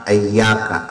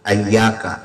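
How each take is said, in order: First: The word begins with an 'a' vowel. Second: The same.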